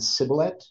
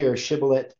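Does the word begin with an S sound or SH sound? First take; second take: S sound; SH sound. First: The word begins with an S sound. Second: The word begins with an SH sound. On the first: "where they substitute the shin" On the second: "shibboleth is the proper way that the word is supposed to be"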